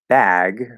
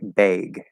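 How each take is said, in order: First: The vowel in bag sounds plain and neutral. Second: The vowel in bag has a New York quality. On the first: This is the speaker's own way of saying it. "when I say the word bag" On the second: This imitates how someone from New York says it. "she says like bag"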